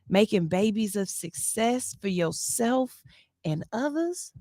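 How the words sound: It is said in a sultry, seductive voice.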